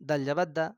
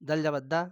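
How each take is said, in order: No difference in how they are said.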